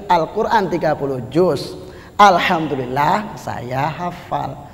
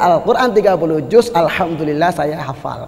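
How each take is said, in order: First: There is a pause in the middle of it. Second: It is said straight through with no pause. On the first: Only the word of praise is memorized. "Karena ada jedanya" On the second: The whole thirty sections of the Quran are memorized. "Kalau tanpa jeda"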